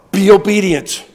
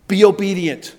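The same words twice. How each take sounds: First: Louder, firmly stressed command; emphatic command. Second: Said in the usual way. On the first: Shown as a demonstration. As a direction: hammer it home to the congregation.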